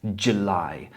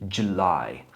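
No difference in how they are said.

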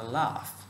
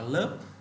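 First: The word ends in an 'f' sound. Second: The word ends in a clipped 'p' sound. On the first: The speaker calls it right. "ta đọc là laugh" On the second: The speaker calls it wrong. "ta không đọc là lớp"

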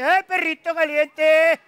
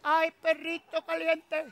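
First: The call sounds somewhat closer and louder. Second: The call sounds faint and far away.

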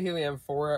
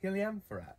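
First: The word is pronounced the American way. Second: The word is pronounced the European way. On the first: "We say Heliamphora around here" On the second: "In Europe, I've noticed they say Heliamphora"

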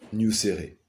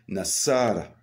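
First: The name is said with 'u' and 'é' vowels. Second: The name is said with 'a' vowels throughout. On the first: The speaker calls it wrong. "on ne dit pas Nuséré" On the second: The speaker calls it right. "on dit Nassara"

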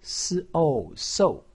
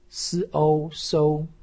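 First: The pitch falls sharply from high. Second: The pitch stays high and level. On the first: "四声" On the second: "一声"

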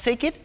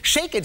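First: It is said with a Greek accent. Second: It is said without a Greek accent.

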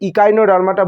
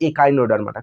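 First: The word begins with an 'ee' vowel. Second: The word begins with an 'eh' vowel. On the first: This is the English-style pronunciation. "ইকাইনোডার্মাটা বলছি কারণ এখানে ই আছে" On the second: This is the Bengali-medium pronunciation. "Bangla medium বলছে একাইনোডার্মাটা"

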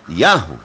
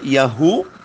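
First: The stress falls on the first syllable. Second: The stress falls on the second syllable. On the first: The speaker calls it right. "tem um acento agudo, né? Na letra A" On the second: The speaker calls it wrong. "a pronúncia já está incorreta"

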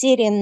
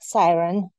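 First: The name is said with its Russian pronunciation. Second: The name is said like the English word siren. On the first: The speaker calls it right. "It's Siren" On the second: The speaker calls it wrong. "not Siren"

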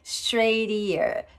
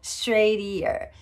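No difference in how they are said.

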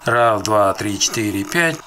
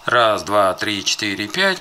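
First: The recording has filters applied. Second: The recording has no filters applied. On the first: "с применением фильтров" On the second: "без применения фильтров"

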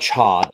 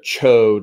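First: The vowel is a short O, as in pod. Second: The vowel is a long O, as in toad. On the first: "probably Chod, like pod" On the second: "instead of Chode, like toad"

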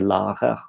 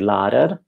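First: The R is made at the back, French-like. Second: The R is made with the tongue tip. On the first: This is how the Southwest says it. "in the Southwest they say" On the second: This is how the East and North say it. "in Oslo and so on, they say"

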